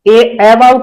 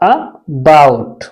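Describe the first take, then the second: First: The first vowel sounds like 'ay'. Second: The first vowel sounds like a short 'uh'. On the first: The speaker calls it wrong. "ए अबाउट नहीं पढ़ते हैं" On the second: The speaker calls it right. "क्या पढ़ते हैं? अबाउट।"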